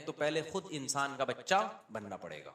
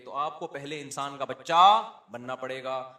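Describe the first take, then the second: First: Said in the usual way. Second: Slower and louder, weight on بچہ; emphatic. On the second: Acted. Preacher to husbands, slow emphatic repeat. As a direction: drive the lesson home.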